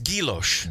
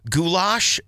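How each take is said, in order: First: It is said like gee-yo-shay, ending in sh-ay. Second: It is said like the stew name goulash. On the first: The speaker calls it right. "It's guiloche" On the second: The speaker calls it wrong. "I said that wrong"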